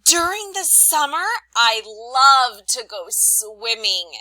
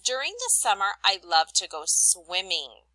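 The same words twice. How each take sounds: First: Teacher showing an excited reading of a sentence. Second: Said in the usual way. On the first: Shown as a demonstration. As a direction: burst out thrilled about summer. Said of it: "You could have read it like this". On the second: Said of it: "statement says".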